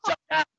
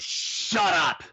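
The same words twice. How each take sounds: First: "Shut up" yelled much higher and louder; hollered shut up. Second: A flat, blunt "Shut up" thrown at her. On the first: Host replaying the owner's retort, high hollered yell. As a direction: belt it out mid-laugh. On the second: Restaurant owner telling the complaining lady to shut up, blunt. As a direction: cut her off cold. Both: Retold or imitated.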